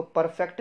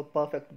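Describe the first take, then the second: First: "परफेक्ट" with R sounded; wrong pronunciation. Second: "परफेक्ट" with silent R; correct pronunciation. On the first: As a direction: say "परफेक्ट" as par-FEKT. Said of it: "इसको परफेक्ट नहीं बोलना". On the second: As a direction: say "परफेक्ट" as PUH-fekt. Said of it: "इसको परफेक्ट बोलना है". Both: Shown as a demonstration.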